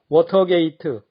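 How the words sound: It is said with Korean-style syllables and vowels. The speaker calls it wrong. "한국 발음은 단번에 알아듣기 어렵습니다"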